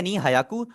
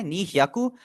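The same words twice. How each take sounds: First: नी हायाकु with a separate "haa" before "yaku"; mistaken pronunciation. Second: नी ह्याकु with hy as one glide; correct pronunciation. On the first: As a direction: show the slip नी हायाकु as ni ha-ya-ku. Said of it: "आपने बोल दिया". (नी हायाकु का गलत उच्चारण, 'हा' अलग से) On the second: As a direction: say नी ह्याकु as ni hya-ku, no "haa". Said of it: "हमने दो सो बोलना है". (नी ह्याकु का सही उच्चारण, 'ह्या' जुड़ा हुआ) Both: Shown as a demonstration.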